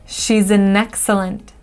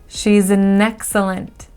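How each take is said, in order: The two takes are said the same way.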